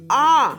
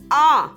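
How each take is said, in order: No difference in how they are said.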